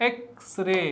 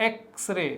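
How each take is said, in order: No difference in how they are said.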